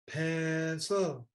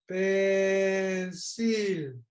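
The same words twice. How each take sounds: First: The word is said with English vowel sounds. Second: The word is read with Spanish vowel sounds.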